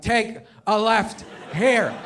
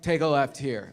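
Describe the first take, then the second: First: Put-on slow, stubborn drunken repeat; hammed-up pushy drunk navigator; drunk friend. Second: Low, offhand instruction; casual tipsy aside, pitched down; understated drunk navigator; drunk friend. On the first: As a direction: draw out each word with pauses, insisting. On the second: Acted. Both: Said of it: "Waze is your drunk friend".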